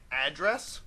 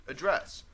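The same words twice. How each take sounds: First: The noun form, AD-dress; stress on first syllable. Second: The verb form, uh-DRESS; stress on second syllable. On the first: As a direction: address as AD-dress. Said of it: "I pronounce it that way". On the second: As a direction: address as uh-DRESS. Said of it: "when I'm talking about the verb". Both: Shown as a demonstration.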